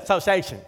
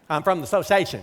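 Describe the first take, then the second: First: "Association" rushed into a clipped quick "sociation"; mimicking the friend's one-beat "Association"; imitating fast "Association". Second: "association" squeezed fast as "sociation"; friend's clipped "association"; imitating the director. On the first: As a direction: swallow the first syllable of "Association". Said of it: "as fast as my friend said". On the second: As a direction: clip "association" down to almost one quick syllable. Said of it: "to him had one syllable".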